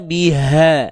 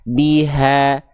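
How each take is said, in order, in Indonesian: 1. Huruf h didorong kuat dengan napas berat. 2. Huruf h biasa saja dan santai dari tenggorokan. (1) "nggak perlu kita baca" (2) "biasa aja"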